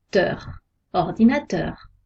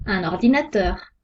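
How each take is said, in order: First: Ordinateur with a little extra weight on teur; light final stress. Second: Said in the usual way. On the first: Shown as a demonstration. Teacher showing students the tonic accent on teur. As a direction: lean gently on the last syllable teur. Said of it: "On accentue un peu". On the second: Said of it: "L'accent tonique est placé sur la dernière syllabe".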